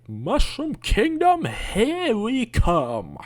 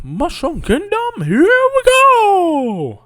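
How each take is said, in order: First: Much higher, slow mocking of the movie line; mock the flat movie delivery; mock Chris Pratt Mario. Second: Much higher, slow, loud cartoon Mario voice; bad Mario impression. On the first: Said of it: "Mario wouldn't say". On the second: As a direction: ham up a goofy Mario. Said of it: "I don't really do a good Mario impression".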